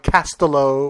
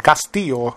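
First: Castillo as "KASS-tuh-lo", stress up front; anglicised pronunciation. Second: Castillo in Spanish, "kas-TEE-yo"; Spanish accent. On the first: Host checking the guest's surname, Castillo anglicised as "KASS-tuh-lo". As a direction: say Castillo the English way, with a hard L. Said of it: "it's not like Castillo or Cast". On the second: Host repeating the guest's surname with a Spanish accent. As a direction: give Castillo its Spanish y sound for the double L. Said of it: "I said that with a Spanish accent". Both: Shown as a demonstration.

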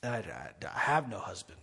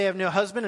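First: Very low, hushed stammer; falter, then admit it softly under the breath; quiet, halting confession in a dropped pitch; hesitant admission. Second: Said in the usual way. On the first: Acted. Woman admits it when confronted.

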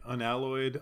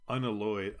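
First: Unalloyed said uh-NAL-oyd, the a as in cat; unalloyed with the stress moved to the second syllable; trying another pronunciation. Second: Unalloyed said un-uh-LOYD, stress on the last syllable; tentative unalloyed with the last syllable loudest; trying a pronunciation. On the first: Cohost tries a second way of saying the word, stress on the second syllable. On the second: Cohost tries out a word they can't pronounce, stress on the last syllable. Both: Shown as a demonstration. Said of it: "We never did settle what that word is".

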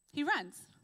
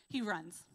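First: "He runs" repeated higher and louder, "runs" punched; stress on runs. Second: Said in the usual way. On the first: Shown as a demonstration. Preacher repeats Elijah's flight for emphasis, "runs" stressed. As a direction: hammer home "runs", pitched up.

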